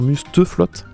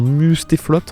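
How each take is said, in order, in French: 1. La deuxième voyelle est un 'e' faible, non accentué. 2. La deuxième voyelle est un son 'é' clair. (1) "On n'a pas le droit de dire Musteflotte" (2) "Pareil pour Mustéflotte"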